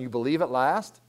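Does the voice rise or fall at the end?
rise. It ends with a rising, questioning tune.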